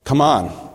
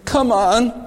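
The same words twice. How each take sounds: First: It sounds like a firm urging to act. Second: It sounds like a pleading request.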